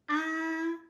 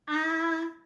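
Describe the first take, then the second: First: The pitch stays high and level throughout. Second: The same.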